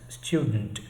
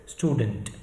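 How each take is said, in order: First: There is a 'y' sound after the t. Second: There is no 'y' sound after the t. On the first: The speaker calls it right. "the actual pronunciation is student" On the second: The speaker calls it wrong. "drop the ya sound in between ... pronounces it wrongly as student"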